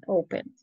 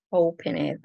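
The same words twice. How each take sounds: First: Said in the usual way. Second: OPEN, ED with ED as its own full syllable; read as spelled. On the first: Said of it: "no estoy pronunciando, estoy escribiendo". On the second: Shown as a demonstration. Teacher adding the ending for students, OPEN, ED read as spelled. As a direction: sound out the written ending separately in OPEN, ED. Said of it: "leyendo cómo se escribe".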